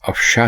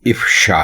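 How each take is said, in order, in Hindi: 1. शब्द 'a' स्वर से शुरू होता है। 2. शब्द 'i' स्वर से शुरू होता है। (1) "दुरुस्त लफ्ज़ अफ़शा नहीं है" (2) "बल्कि इफ़शा है"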